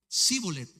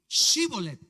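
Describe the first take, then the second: First: The word begins with a plain s sound. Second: The word begins with an sh sound. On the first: The speaker calls it wrong. "Se estaban comiendo la H" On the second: The speaker calls it right. "ahora pues di Shibolet"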